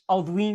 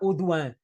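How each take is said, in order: First: The name is pronounced in a Portuguese-adapted way. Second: The name is pronounced in the original French way. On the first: This is the usual local habit of adapting names. "nós dizemos em português Alduin" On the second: This keeps the name's original pronunciation. "em francês será Audouin"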